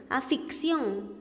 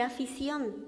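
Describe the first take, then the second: First: Afición said slowly as "afiksión", with an extra k sound; wrong pronunciation. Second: Said in the usual way. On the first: Shown as a demonstration. Teacher shows students the mistaken "afiksión" slowly. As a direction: drag out the wrong "afiksión", k before the s. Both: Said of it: "por decir afición".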